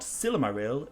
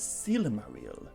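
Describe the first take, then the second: First: The I letters have English vowel sounds. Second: The I letters are sounded like 'ee'. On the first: The speaker calls it wrong. "It's not Silmaril" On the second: The speaker calls it right. "the letter I is pronounced like an E"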